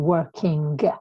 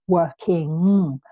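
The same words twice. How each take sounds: First: The final g is clearly pronounced. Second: The word ends in a nasal, no g. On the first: The speaker calls it wrong. "we don't say the G, okay? We don't say working" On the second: The speaker calls it right. "we say working"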